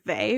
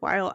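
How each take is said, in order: First: The name sounds like 'vay', starting with v. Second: The name sounds like the word 'while'. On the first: "which is how I tend to pronounce it" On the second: "I have heard while"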